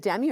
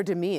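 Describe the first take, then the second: First: "Demi" as the first option, stressed on the first syllable; name pronunciation check. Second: "Demi" stressed on the second syllable; Demi Moore pronunciation. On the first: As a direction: say "Demi" as DEM-ee. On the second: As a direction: say "Demi" as duh-MEE, like Demi Moore. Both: Shown as a demonstration. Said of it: "It's like Demi Moore".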